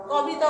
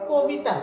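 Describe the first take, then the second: First: কবিতা with a plain open অ in the first syllable, as spelled; teacher shows কবিতা as students must not say it; wrong way said. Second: কবিতা with the first syllable as কো, like কোবিতা; teacher gives কবিতা with an ও sound after ক; correct way said. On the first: Teacher to students, showing the wrong pronunciation of কবিতা. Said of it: "কবিতা বলি না". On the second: Teacher to students, showing the correct pronunciation of কবিতা. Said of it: "আমরা বলি". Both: Shown as a demonstration.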